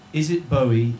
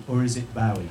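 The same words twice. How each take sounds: First: "Bowie" rhyming with snowy; first syllable of "Bowie" like "bow" in rainbow; Bowie as BOH-ee. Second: "Bowie" with OW as in cow; first syllable of "Bowie" like "now". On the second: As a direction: say "Bowie" to rhyme with wowie. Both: Shown as a demonstration. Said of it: "is pronounced Bowie".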